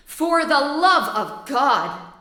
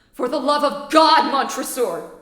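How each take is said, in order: First: Slow, drawn-out taunting repeat; mock his plea slowly; mocking echo. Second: Loud begging cry; desperate plea. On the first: Montresor mockingly echoes. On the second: Acted. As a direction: beg loudly to be freed. Trapped man begs.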